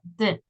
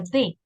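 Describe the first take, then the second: First: It is said as a short bare consonant. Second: It is said as the full letter name. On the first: The speaker calls it right. "se pronuncia D. That's the pronunciation" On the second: The speaker calls it wrong. "Ese no se pronuncia D"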